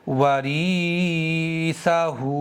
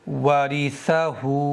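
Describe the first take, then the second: First: The 'ri' vowel is drawn out long. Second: The 'ri' vowel is short. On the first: The speaker calls it wrong. "जेर को खींच करके पढ़ते हैं" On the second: The speaker calls it right. "जल्दी पढ़ेंगे"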